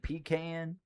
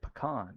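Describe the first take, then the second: First: The word is said with a Southern US pronunciation. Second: The word is said with a Canadian pronunciation. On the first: This is how it is said locally in the South. "we don't say it like that here" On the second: This is how it is said in Canada. "I'm just Canadian"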